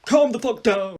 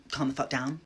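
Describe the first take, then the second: First: Loud, higher bellow; Dumbledore. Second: Said in the usual way. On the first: Acted. Headmaster silencing the panicked hall, hammed-up bellow. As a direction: roar it as a headmaster taking charge. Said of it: "And Dumbledore's like". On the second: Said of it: "And I'm like".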